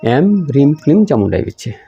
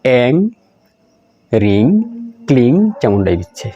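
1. শব্দাংশগুলো ম দিয়ে শেষ হয়, ঠোঁট বন্ধ থাকে। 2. শব্দাংশগুলো ঙ দিয়ে শেষ হয়, ঠোঁট খোলা থাকে। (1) "একজনে ম বলছে" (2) "একজনে গ বলছে"

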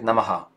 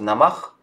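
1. После конечного h идёт эхо-гласный. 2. Слово заканчивается на чистый звук h. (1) "а можем сказать намага" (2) "Можем сказать просто намах"

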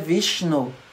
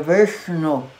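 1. O som sh é feito com a língua plana. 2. O som sh é feito com a língua curvada para trás. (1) "ele não é Vishnu" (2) "ele é retroflexo, a língua fica ali em cima"

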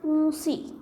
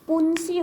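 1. हा फक्त अनुनासिक स्वर आहे. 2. हा अनुनासिक पूर्ण 'न' व्यंजन आहे. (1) "अऊ नुसता उच्चार होतो" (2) "पुंसी होत नाही"

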